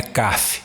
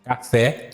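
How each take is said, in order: First: "caf" with the stress thrown onto CA; wrong stress on first syllable. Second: "Café" with the stress on FÉ; stress on last syllable. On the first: Teacher showing students the wrong café, stress on first syllable. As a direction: say "caf" stressed at the front, weak ending. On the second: Teacher showing an oxytone word, "Café" stressed on the end. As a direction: land firmly on the final syllable of "Café". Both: Shown as a demonstration. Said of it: "porque a última sílaba é tônica".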